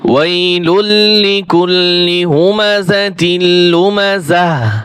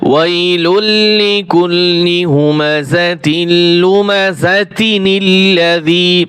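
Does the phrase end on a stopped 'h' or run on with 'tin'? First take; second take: stopped 'h'; runs on. First: The phrase stops, ending in a final 'h' sound. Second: The ending becomes 'tin' and runs into the next word. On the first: The reciter pauses at the end of the verse. "ওয়াকফ করলে এক রকমের" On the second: The reciter joins the verse to the next one. "আর যদি মিলিয়ে যায়"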